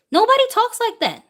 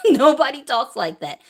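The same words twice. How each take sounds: First: Way up high, outraged disbelief; high incredulous exclaim. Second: Said again through a laugh; laughing repeat. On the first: To viewers, rejecting media claims, high incredulous exclaim. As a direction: throw the line up high in disbelief. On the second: To viewers, laughing off the media claims, amused laughing repeat. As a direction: repeat it, chuckling at the absurdity. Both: Real, not acted.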